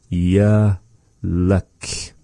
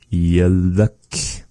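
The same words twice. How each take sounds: First: "Yaluk" in two slow, separated syllables. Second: Said in the usual way. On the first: Shown as a demonstration. Teacher sounding out the next word for learners, "Yaluk" syllable by syllable. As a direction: draw out "Yaluk" with a pause in the middle.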